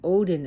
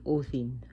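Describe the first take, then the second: First: The middle consonant is a hard d sound. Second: The middle consonant is a soft th-like sound. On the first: The speaker calls it wrong. "they don't even pronounce the names right" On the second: The speaker calls it right. "The D is a D H sounding"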